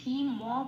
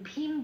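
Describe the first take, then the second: First: The word ends with a vowel after m. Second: The word ends on a bare m sound. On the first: The speaker calls it right. "কিন্তু এখানে আমি ভীম ম বলছি" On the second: The speaker calls it wrong. "মটাকে ভাঙলে তখন কিন্তু আহ ভীম বলতাম"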